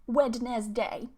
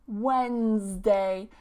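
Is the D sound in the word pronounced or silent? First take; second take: pronounced; silent. First: The D sound in the middle is pronounced. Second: The D sound in the middle is silent. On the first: The speaker calls it wrong. "I hear this one pronounced as Wednesday quite a lot" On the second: The speaker calls it right. "this D here is silent, and we say Wednesday"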